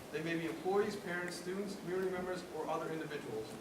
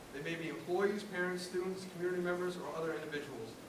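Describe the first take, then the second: The two takes are said the same way.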